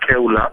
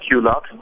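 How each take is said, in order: First: The name is said with a Spanish reading. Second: The name is said with an English reading.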